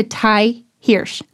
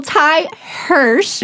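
First: Hirsch said the wrong way, not like Hershey's; mispronounced surname. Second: Hirsch said slowly and carefully as "hursh"; corrected pronunciation. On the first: Host introducing guest, mispronouncing Hirsch. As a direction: say Hirsch with a vowel unlike the one in Hershey's. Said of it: "I know I said that wrong". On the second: Host redoing the introduction, careful slow "hursh" for Hirsch. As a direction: take Ty Hirsch slowly, rhyming Hirsch's start with Hershey's. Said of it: "like Hershey's". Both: Real, not acted.

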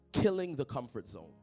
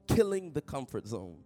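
No difference in how they are said.

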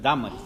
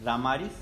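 First: Dámaris stressed on DÁ, falling away after it; stress on first A. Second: Put-on Damaris as a rising question, without the first-syllable accent; questioned wrong stress. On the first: Shown as a demonstration. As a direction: correct it to DÁ-ma-ris, accent on the first syllable. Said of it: "Acento en la A". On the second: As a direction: query "Damaris", lifting the end instead of stressing the first A. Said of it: "No, es Dámaris".

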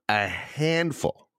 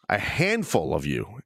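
First: "a handful" repeated slowly and deliberately; emphatic repeat. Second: Said in the usual way. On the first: Real, not acted. Host singling out complaining listeners, "a handful" slow and pointed. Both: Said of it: "I want to repeat the word".

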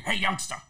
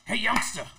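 First: Imitating Rick. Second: Louder mock call of youngster; imitating Rick calling out. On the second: Actor imitates Rick calling him over, loud mock call. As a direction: call the kid over in Rick's voice. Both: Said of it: "you sound just alike".

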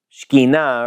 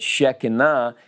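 First: Shekhinah as shkee-NAH, two syllables; Hebrew pronunciation. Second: Shekinah in three syllables, SHEK-uh-nah; alternative pronunciation. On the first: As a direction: blend SH straight into K in Shekhinah, full final NAH. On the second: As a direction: open Shekinah with a short SHEK, then a light middle vowel. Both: Shown as a demonstration. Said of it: "or if you say it Shekinah".

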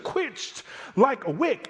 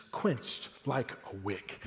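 First: "quenched like a wick" pitched high and slowed, stretched out with a lift on "wick"; triumphant and high. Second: "quenched like a wick" said soft and very slow, fading to near silence; hushed and slow. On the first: Preacher voicing God boasting over the chariots, high and slow. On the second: Preacher first reading the verse to the congregation, hushed and slow. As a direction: let "quenched like a wick" snuff out quietly, drawn out. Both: Shown as a demonstration.

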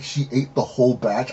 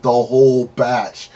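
First: Said in the usual way. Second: "whole" stretched out slowly; stress on whole. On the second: Retold or imitated. Confirming to a disbelieving friend how much she ate, stress on "whole". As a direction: draw out "whole" for emphasis. Retold emphatic confirmation of amount.

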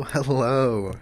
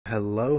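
First: Louder, rounder second hello; podcast mic voice. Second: Rich close-up mic voice; podcast mic voice. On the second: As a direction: lean in to the mic, savoring it. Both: Shown as a demonstration. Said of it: "Do you hear that?".

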